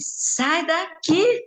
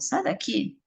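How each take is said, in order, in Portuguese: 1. As palavras são gritadas alto e com força. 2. As palavras são ditas baixinho e com suavidade. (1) "Aí eu gritei com ele" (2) "Se eu for falar assim, ela não vai sair"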